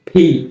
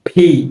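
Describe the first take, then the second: Both takes have the same delivery.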